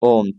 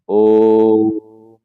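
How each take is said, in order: First: The word is said quickly and briefly. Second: The word is said slowly and drawn out. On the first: The speaker calls it wrong. "मैं यहाँ पे थोड़ा जल्दी बोल रहा हूँ" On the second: The speaker calls it right. "थोड़ा सा रुक करके आहिस्ता से पूर्ण रूप से उच्चारण"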